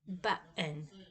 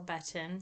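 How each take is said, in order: First: The middle consonant is a glottal stop. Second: The middle consonant is a quick tap. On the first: "There are some that have the glottal stop" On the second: "I say button or button, so mine would be more like an alveolar top"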